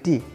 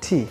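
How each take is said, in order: First: The letter is said with a Bengali accent. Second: The letter is said with an American accent. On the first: "আমরা বাঙালি আমরা যারা বলি এটাকে বলি টি" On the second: "American English এটাকে বলে টি"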